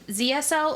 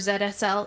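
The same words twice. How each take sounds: First: The first letter is not said the Canadian way. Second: The first letter is said the Canadian way.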